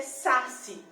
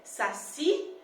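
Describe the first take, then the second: First: Saci misstressed as SA-ci, first syllable punched; stress on first syllable. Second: Saci drawn out with the weight on the final "ci"; stress on last syllable. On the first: Teacher offering a wrong pronunciation, saci stressed on "sa". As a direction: say saci slowly, hitting "sa" hard. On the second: Teacher testing where saci's stress falls, stress on "ci". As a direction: say saci slowly, leaning on "ci". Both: Shown as a demonstration. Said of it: "como é que a palavra saci é pronunciada".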